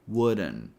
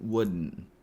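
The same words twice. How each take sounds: First: It is said with an added schwa vowel. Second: It is said with a glottal stop instead. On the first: "the longer version ... where we add a schwa sound" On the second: "we're going to use a glottal T sound"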